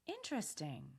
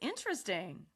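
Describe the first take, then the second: First: It is said with a curious tone. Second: It is said with an excited tone. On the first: "Say this with curiosity" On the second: "Now say it with excitement"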